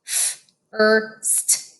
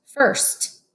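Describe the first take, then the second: First: F, er, st pulled apart; sounded out. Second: Said in the usual way. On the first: Shown as a demonstration. Teacher sounding out F-er-st for kids. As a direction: segment first as F-er-st. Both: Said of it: "Read with me".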